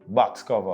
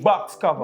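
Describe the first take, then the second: First: It is said with little energy. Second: It is said with lots of energy.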